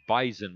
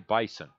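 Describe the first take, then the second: First: The middle consonant is a buzzing Z sound. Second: The middle consonant is a hissing S sound. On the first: The speaker calls it right. "It's Bison with a Z" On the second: The speaker calls it wrong. "you don't say Bison"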